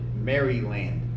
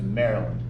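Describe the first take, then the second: First: The first part sounds like the full name Mary. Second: The first part is reduced and run together. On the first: This is the original form honoring the queen. "the English name for Maria is Mary. So he called it Maryland" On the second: This is the later American form. "We've later Americanized it to Maryland"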